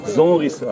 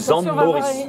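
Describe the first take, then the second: First: The name is squeezed into one short contracted word. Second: The name keeps more syllables, with the M dropped. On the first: "on contracte encore plus même" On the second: "le son M disparaît"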